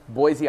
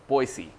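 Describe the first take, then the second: First: The city name is said the non-local way. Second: The city name is said the local way. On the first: The speaker calls it wrong. "I'm sorry, I'm mispronouncing it" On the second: The speaker calls it right. "Everybody there pronounces it Boise"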